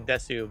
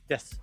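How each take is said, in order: First: The final u vowel is clearly pronounced. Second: The final u vowel is silent. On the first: "I don't say desu" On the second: "the su is very silent. So des"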